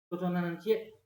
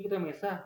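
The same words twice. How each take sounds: First: Light Minang accent on "Nan Cie"; Minang dialect. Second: Said in the usual way. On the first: Shown as a demonstration. Imagined objector pointing at the written text, Minang dialect. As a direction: quote the Minang version. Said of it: "logat Minang misalnya". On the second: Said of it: "Nggak, beda kok".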